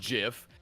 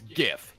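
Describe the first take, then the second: First: The word begins with a soft J sound. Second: The word begins with a hard G sound. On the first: This is how the creator says it. The speaker calls it wrong. "the creator says it's GIF. It's not fucking peanut butter" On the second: This is how the speaker says it. The speaker calls it right. "I say it with a G because I'm not a bitch. A hard G"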